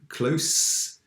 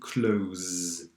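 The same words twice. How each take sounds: First: The word ends with a hissing s sound. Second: The word ends with a buzzing z sound. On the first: It means near or intimate. "One is an adjective, close. ... it's close avec un s" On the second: It means to shut something. "One is a verb, to close. ... c'est prononcé avec un z"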